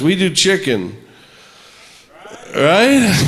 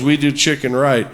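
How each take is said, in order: First: It ends as a rising question after a pause. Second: It is said as a flat statement.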